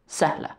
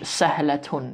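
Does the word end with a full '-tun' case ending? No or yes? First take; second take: no; yes. First: The word ends without the case ending. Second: The word ends with a full case ending. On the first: The speaker calls it right. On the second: The speaker calls it wrong.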